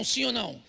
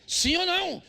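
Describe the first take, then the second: First: Said in the usual way. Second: Pressing the congregation for an answer; shouted repeat. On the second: Acted. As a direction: throw the question hard at the crowd. Preacher repeats question, shouting.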